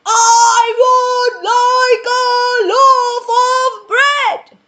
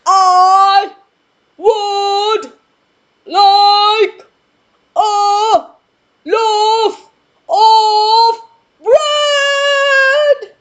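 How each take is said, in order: First: Very loud, high, slow shouted order; louder booming shout. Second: Each word shouted apart, very loud and high; word-by-word booming shout. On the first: Mister Noisy shouting his order louder at the baker. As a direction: shout it even bigger. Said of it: "even louder". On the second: Mister Noisy spacing out his order for the baker. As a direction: hammer every word out. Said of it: "I'll give it another shot". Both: Acted.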